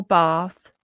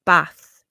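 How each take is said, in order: First: Bath with a long AH, as in bahth. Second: Bath with a short flat A, as in cat; Brummie short A. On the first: Boss quoting the wrong answer, long-A bath. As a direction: stretch bath into southern-style bahth. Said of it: "some Brummies from Solihull say bath and grass". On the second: Candidate answering the interviewer, Brummie short-A Bath. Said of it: "How do you say Bath?". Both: Retold or imitated.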